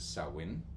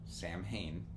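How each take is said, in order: First: It starts with 'sow' and ends in 'in'. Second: It starts with 'Sam' and ends in 'hain'. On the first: The speaker calls it right. "like a sow, S O W, and in" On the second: The speaker calls it wrong. "It's not Sam Hain"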